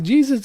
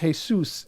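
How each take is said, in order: First: It is said the English way, with a J sound. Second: It is said the Spanish way, like hay-soos. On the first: "Are you Jesus up here" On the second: "but he's Jesus in in in Mexico and Spain"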